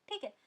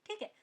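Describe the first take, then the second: Both takes have the same delivery.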